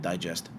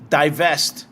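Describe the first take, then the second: First: Said in the usual way. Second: "divest." punched louder as the fix; correcting stress. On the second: Shown as a demonstration. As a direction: hit "divest." firmly to correct the slip. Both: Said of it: "not digest".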